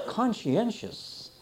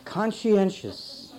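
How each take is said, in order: First: Slow, relished conscientious; savoring the word. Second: Slow conscientious, every syllable laid out; slow, deliberate word. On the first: Preacher savoring a word he loved as a child, slowly. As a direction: draw out conscientious, enjoying each syllable. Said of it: "such a neat word". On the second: Preacher stating the word before defining it, slowly. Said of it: "Here's a conscientious". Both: Shown as a demonstration.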